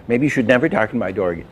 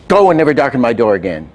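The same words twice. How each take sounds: First: "Maybe" eased in gently, the rest quick and light; soft accent. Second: "Go" hit hard and fast, a firm dismissal; hard accent. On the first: Teacher demos the same line with a soft accent, quick and light. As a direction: let "never" land softly, no punch. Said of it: "It's softer". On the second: Animation teacher demos a hard accent, punching "Go" hard. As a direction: bark "Go" out, then drive the rest at pace. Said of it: "the hard accent is this". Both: Shown as a demonstration.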